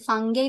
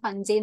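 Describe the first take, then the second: First: The middle consonant is a hard g sound. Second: The middle consonant is a j sound. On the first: "ഫംഗൈ എന്ന് pronounce ചെയ്യാം" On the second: "ഫഞ്ചൈ എന്ന് pronounce ചെയ്യാം"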